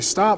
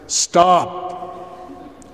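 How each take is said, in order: First: It is said in a casual, ordinary voice. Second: It is said in a commanding father's voice.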